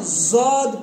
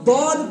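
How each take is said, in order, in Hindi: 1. इसकी शुरुआत z की आवाज़ से होती है। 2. इसकी शुरुआत सामान्य d की आवाज़ से होती है। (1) "ना जौद पढ़ना है" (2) "ना दौद पढ़ना है"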